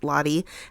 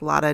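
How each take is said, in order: First: The name ends with an 'ee' sound. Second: The name ends with an 'ah' sound. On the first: The speaker calls it wrong. "not Lottie" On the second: The speaker calls it right. "I know it's pronounced Lotta"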